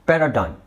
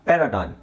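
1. ಈ ಪದವನ್ನು ಅಮೆರಿಕನ್ ಉಚ್ಚಾರಣೆಯಲ್ಲಿ ಹೇಳಲಾಗಿದೆ. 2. ಈ ಪದವನ್ನು ಅಮೆರಿಕನ್ ಉಚ್ಚಾರಣೆಯಲ್ಲಿ ಹೇಳಲಾಗಿದೆ.

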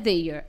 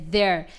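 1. Tem pronúncia diferente da palavra 'there'. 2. Tem exatamente a mesma pronúncia da palavra 'there'. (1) "Não é their" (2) "é their. Mesma pronúncia de there"

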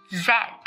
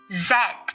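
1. Chữ Z được phát âm theo giọng Anh Anh. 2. Chữ Z được phát âm theo giọng Anh Anh.

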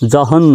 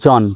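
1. নামটি উচ্চারণ করা হয় একটি h ধ্বনি সহ। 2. নামটি উচ্চারণ করা হয় কোনো h ধ্বনি ছাড়া। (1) "নয়" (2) "শুধু জন"

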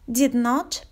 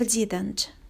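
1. Not произносится как отдельное полное слово. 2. Not редуцируется и присоединяется к did. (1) "Полную форму частицы not" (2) "В обычной речи частицу not сокращают"

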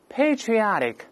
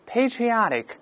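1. 这是用美式口音说的。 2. 这是用美式口音说的。

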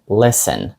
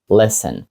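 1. Звук t посередині не вимовляється. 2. Звук t посередині не вимовляється.

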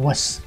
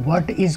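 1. यह एक छोटा शब्द है, जिसमें t या i नहीं बोला जाता। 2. यह दो पूरे शब्दों की तरह बोला जाता है।

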